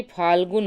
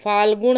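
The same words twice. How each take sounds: First: फाल्गुन ending in dental n; plain n at the end of फाल्गुन; correct form. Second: फाल्गुन ending in retroflex ṇ; wrong form. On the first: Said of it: "बल्कि फाल्गुन होता है". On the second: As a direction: curl the tongue to end फाल्गुन. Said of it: "फाल्गुन नहीं होता". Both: Shown as a demonstration.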